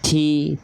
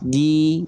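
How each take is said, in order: First: The consonant has a puff of breath. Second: The consonant has no puff of breath. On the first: The speaker calls it wrong. "tak nempel" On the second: The speaker calls it right. "dia nggak akan dibaca ada percikan nafasnya"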